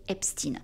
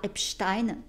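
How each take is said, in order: First: The name is pronounced the American way. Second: The name is pronounced the French way. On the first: "aux States, ils disent euh, Weinstein et Epstein" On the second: "tout comme c'est pas Epstein"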